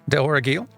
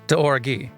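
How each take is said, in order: First: An L sound is pronounced at the end. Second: No L sound is pronounced at the end. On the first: The speaker calls it wrong. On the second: The speaker calls it right.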